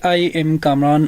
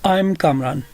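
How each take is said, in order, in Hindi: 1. 'I am' दो पूरे शब्दों की तरह कहा जाता है। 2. 'I am' को कंट्रैक्ट करके एक सिलेबल में कहा जाता है। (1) "तरह नहीं कहना कि" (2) "ये कंट्रैक्शन फॉर्म है"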